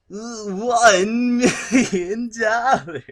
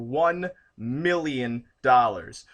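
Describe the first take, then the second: First: It is said in a put-on villain character voice. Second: It is said in his normal speaking voice.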